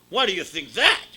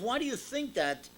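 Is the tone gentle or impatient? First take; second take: impatient; gentle. First: It is asked in an impatient, irritated tone. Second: It is asked in a gentle, curious tone.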